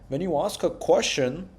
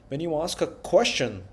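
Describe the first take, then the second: The two takes are said the same way.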